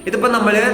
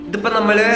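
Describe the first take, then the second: No difference in how they are said.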